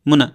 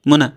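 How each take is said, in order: Both takes have the same delivery.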